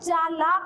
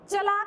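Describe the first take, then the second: First: The first vowel is long. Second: The first vowel is short. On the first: The speaker calls it right. "तो चालाक होता है बेटा" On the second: The speaker calls it wrong. "चलाक नहीं होता बेटा"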